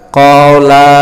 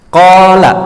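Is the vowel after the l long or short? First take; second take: long; short. First: The vowel after the l is long. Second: The vowel after the l is short. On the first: The two of them said it. "la-nya panjang di belakang" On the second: One man said it. "la yang pertama pendek"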